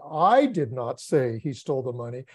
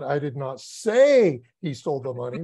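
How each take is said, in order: First: The stress is on the word I. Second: The stress is on the word say.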